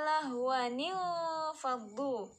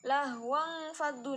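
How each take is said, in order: First: A linking 'ni' syllable joins the two words. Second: The words join directly with no linking syllable. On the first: The speaker calls it right. "Ini dibacanya lahwanil faddu" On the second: The speaker calls it wrong. "banyak nih yang bacanya lahwang faddu"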